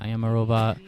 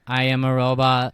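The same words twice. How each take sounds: First: Flat mechanical robot voice. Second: Louder flat robot voice. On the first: Pretend. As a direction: talk like a stiff machine. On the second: Retold or imitated. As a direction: imitate a robot, even and stiff. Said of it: "That's what Emma used to do".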